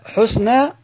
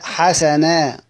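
First: The first syllable has a u vowel. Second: The first syllable has an a vowel. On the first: "ضم الحاء" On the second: "فتح الحاء"

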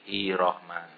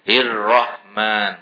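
First: The r sound is short and single. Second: The r sound is held long and doubled. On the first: The speaker calls it wrong. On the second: The speaker calls it right.

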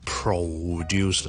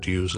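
First: The first syllable is said strongly with a full vowel. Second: The first syllable loses its vowel entirely. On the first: "前面咧我就唔需要太强地produce啦" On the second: "更加唔好唔见咗个o 变咗produce啦"

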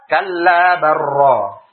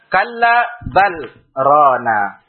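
First: The l merges into r with no stop. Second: The l is kept, with a short stop before r. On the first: The speaker calls it wrong. "Tidak kita baca kalla barra. Tidak" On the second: The speaker calls it right. "ada saktah sebelum sesudah lamnya? Maka ini tidak kita idghamkan"

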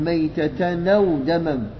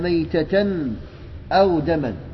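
First: The glottal stop drops and 'n' joins 'aw'. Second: The glottal stop before 'aw' is pronounced. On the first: "فتنقل حركة الهمز إلى الساكن قبلها" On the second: "وأو همزة قطعية"

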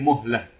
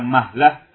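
First: The first vowel is a rounded 'u'. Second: The first vowel is an open 'a'. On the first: The speaker calls it right. "dengan mendomah mim" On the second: The speaker calls it wrong. "Bukan mahlah"

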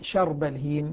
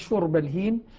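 First: The first word begins with an 'a' vowel. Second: The first word begins with an 'u' vowel. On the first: "بفتح الشين" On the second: "يقرؤها بالضم"

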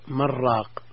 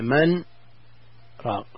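First: The two words run together without a pause. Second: There is a short pause after the first word. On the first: It could be misheard as a word for a broth seller. The speaker calls it wrong. "إذا وصلنا من راق، نعم، صار اللفظ من راق" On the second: The two words are heard as separate words. The speaker calls it right. "هل يجب السكت عند قوله من راق"

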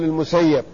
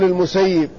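First: The doubled y is followed by an a vowel. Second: The doubled y is followed by an i vowel. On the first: The speaker calls it wrong. "لا تقل المسيب" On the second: The speaker calls it right. "وقل المسيب"

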